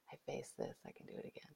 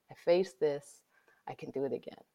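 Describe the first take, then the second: First: Fading to a whisper; whispered mantra. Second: Said in the usual way. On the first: Shown as a demonstration. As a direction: repeat it softly to yourself. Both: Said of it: "evidence that shows you".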